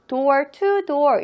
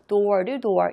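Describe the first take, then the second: First: The t in 'to' is pronounced clearly. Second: The t in 'to' is weakened and linked. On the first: "door to door 이라고 하는 것도 무방하지만" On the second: "이 중간에 있는 t 발음이 조금 약화되는 겁니다. 그래서 door to door 이렇게 읽는 거거든요"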